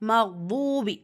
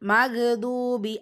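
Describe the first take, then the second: First: The gh sound is held smoothly without a bounce. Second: The gh sound is released with a bounce. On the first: The speaker calls it right. "Right" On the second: The speaker calls it wrong. "நிறைய பேர் பண்ணுற தவறு ... கல்கலா பண்ணக்கூடாது"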